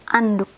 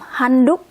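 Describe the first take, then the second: First: The word starts with a vowel, no h. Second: The word starts with an h sound. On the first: "it becomes anduk" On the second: "From handuk"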